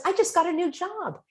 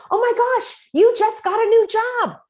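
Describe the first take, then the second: First: Said in the usual way. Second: Very high, loud "oh my gosh" for happy news; mock thrilled, pitched way up; excited reflecting. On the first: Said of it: "someone who says". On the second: Shown as a demonstration. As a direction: gush back their good news. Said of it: "And you say".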